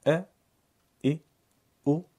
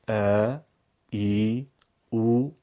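First: ا ای او each kept short and clipped; short vowels. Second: ا ای او each stretched out and louder; long vowels. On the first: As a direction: say ا, ای, او with no length. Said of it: "صداهای کوتاه". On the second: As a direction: draw out ا, ای, او long. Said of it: "صداهای کشیده". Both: Shown as a demonstration.

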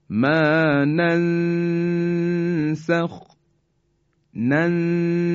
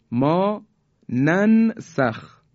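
First: ننسخ recited slowly, the ن nasalized and hidden before س; ikhfa recitation. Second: Said in the usual way. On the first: Shown as a demonstration. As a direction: Quranic recitation with a hummed nasal before سین. (تلاوت ننسخ با اخفای نون پیش از سین)

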